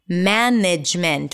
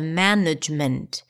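First: The second vowel is a full, clear vowel. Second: The second vowel is reduced to a schwa. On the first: The speaker calls it wrong. "the letter E is going to be associated with A" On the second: The speaker calls it right. "instead of"

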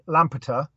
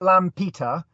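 First: The word is said at a quick pace. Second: The word is said at a slower pace.

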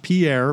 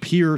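First: The name is pronounced the way outsiders say it. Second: The name is pronounced the way locals say it. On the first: The speaker is not from the town. The speaker calls it wrong. "not Pierre" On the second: The speaker is from the town. The speaker calls it right. "but Pierre"

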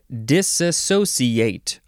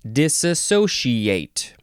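First: The consonant before -ciate is an s sound. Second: The consonant before -ciate is an sh sound. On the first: "with a C sound" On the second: "or a she sound"

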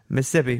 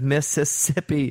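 First: One syllable is cut out of the word. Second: All four syllables of the word are pronounced. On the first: This is how people said it growing up in Arkansas. "It's like you cut a whole "is" off of it" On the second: This is the usual pronunciation. "Instead of Mississippi"

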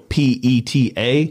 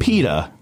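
First: Each letter is said separately, one by one. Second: It is pronounced as a single word. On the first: It is an initialism. "if you had to go PETA, that would be an initialism" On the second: It is an acronym. "PETA is an acronym"

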